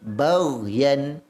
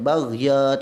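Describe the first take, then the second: First: The word ends with a clear n sound. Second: The word ends on a vowel, no n. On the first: The speaker calls it right. "Jelaskan yan" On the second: The speaker calls it wrong. "bukan baghya, tak boleh"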